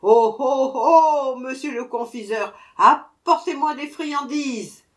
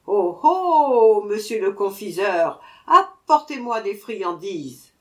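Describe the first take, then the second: First: Louder, higher shout; dwarf shouting louder still; even louder cry. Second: Dwarf shouting for sweets; very loud cry. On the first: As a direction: bellow it, annoyed now. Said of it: "cria encore plus fort". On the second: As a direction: call out loudly to the confectioner. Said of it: "cria d'une voix très forte". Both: A narrator's reading.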